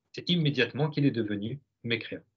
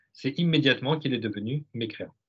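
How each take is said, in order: The two takes are said the same way.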